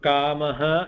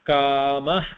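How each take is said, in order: First: The final visarga is sounded as a full syllable. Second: The final visarga is cut short to a breath. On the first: The word is said on its own. "So kamaha and kamapradaha" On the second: The word is followed by a ka sound. "It becomes a half visarga when it is followed by a ka"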